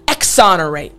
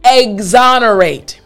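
First: The word starts with an 'ex' sound, like the letter X. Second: The word starts with an 'eggs' sound, like the food. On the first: The speaker calls it wrong. "It's not exonerate" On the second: The speaker calls it right. "It sounds like you're saying the word eggs"

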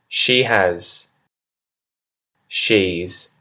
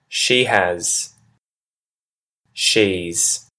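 Both takes have the same delivery.

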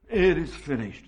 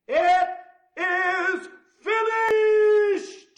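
First: It is muttered quietly and low. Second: It is cried out in a loud voice. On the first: The speaker has given up in defeat. The speaker calls it wrong. "he didn't slump his head to his chest and mutter" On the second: The speaker has won like a conqueror. The speaker calls it right. "he cried with a loud voice"

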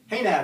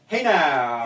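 First: It is said calmly, without extra energy. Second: It is said with strong emphasis and energy.

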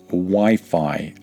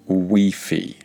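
First: The i vowels sound like 'eye'. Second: The i vowels sound like 'ee'. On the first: The speaker calls it right. "Make sure you pronounce the word Wi-Fi" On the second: The speaker calls it wrong. "and not Wi-Fi"

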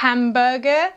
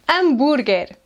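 First: The initial h is pronounced aloud. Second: The initial h is silent. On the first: The speaker calls it wrong. "Não é hambúrguer" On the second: The speaker calls it right. "mas sim hambúrguer. Não se esqueçam, o H é silencioso"

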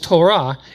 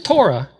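First: It is said the Hebrew way. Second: It is said the Yiddish way.

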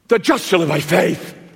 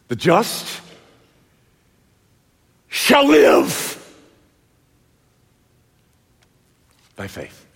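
First: The stress is on "just". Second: The stress is on "live".

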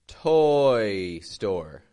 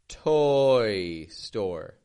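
The two takes are said the same way.

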